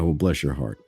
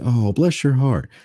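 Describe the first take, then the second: First: It sounds sarcastic and condescending. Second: It sounds sincere and warmly grateful.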